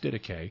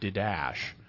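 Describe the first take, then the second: First: The word is said unlike its spelling suggests. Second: The word is said as its spelling suggests. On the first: The speaker calls it right. "But it's not. It's Didache" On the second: The speaker calls it wrong. "people look at the way it's spelled and they think it should be pronounced Didache"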